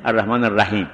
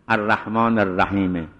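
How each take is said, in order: First: الرحیم closed on a silent m; pause with sukun. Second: الرحیم ending on an audible me; pause on the vowel. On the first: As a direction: stop الرحیم at the m, no vowel. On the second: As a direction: voice a short e after الرحیم, then stop. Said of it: "این وقف به حرکت شد". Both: Shown as a demonstration.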